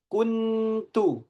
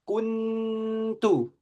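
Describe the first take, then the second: Both takes have the same delivery.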